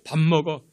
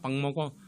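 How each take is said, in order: First: It is said in a blunt, curt, flat tone. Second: It is said in a cute, nasal, coaxing tone. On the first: The husband feels his pride is hurt. The speaker calls it wrong. "그 애교 섞인 말이 없고 그냥 퉁명스럽게" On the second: The husband feels cherished and energized. The speaker calls it right. "그 애교 섞인 말투로 그 코맹맹이 쓰기로"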